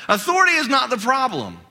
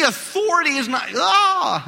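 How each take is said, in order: First: Said in the usual way. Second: Strained voice cracking mid-word. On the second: Real, not acted. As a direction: voice breaking on a high shout. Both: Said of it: "I'm losing my voice now".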